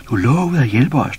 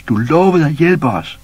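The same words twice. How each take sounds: First: Loud, high reproachful shout. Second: Drawn out, higher and louder reproach; slower, louder shout. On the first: Baboon shouts at Pus, tugging his sleeve. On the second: Baboon shouts again, slower and more insistent. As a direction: stretch it out, insisting. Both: A narrator's reading. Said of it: "råbte".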